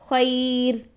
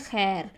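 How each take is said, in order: First: The vowel glides softly from a to i. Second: The vowel is a plain, steady vowel. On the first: This is how it is recited in Arabic. "नरमी से मोड़ पैदा करेंगे और इसकी साउंड करेंगे खई" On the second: This is how it is said in Urdu. "हम उर्दू लैंग्वेज में इस वर्ड को पढ़ते हैं खैर"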